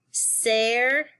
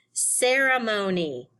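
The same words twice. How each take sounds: First: "Cer-e-mo-ni" in four separate beats; syllable by syllable. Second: Said in the usual way. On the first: Shown as a demonstration. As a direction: break "Cer-e-mo-ni" into syllables, pausing after each. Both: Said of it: "We have four syllables".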